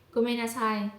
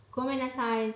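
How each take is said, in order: Both takes have the same delivery.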